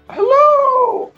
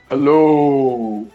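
First: The voice is pitched high. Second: The voice is pitched lower.

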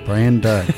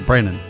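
First: The name is said slowly with every sound clear. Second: The name is said fast with the sounds run together. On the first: "I enunciated that for you on purpose" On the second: "so you say it quickly"

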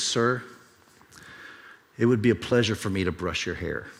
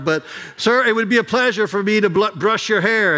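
First: It is said very quietly. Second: It is said loudly.

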